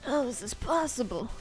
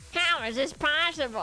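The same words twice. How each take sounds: First: It is said in a put-on old man voice. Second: It is said in an attempted robotic droid voice. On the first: "I'm gonna go back to my old man voice" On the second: "That doesn't sound like a battle droid"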